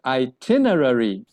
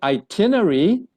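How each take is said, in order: First: It is said with an American pronunciation. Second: It is said with a British pronunciation. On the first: "The American will pronounce it as itinerary" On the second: "The British will say itinerary"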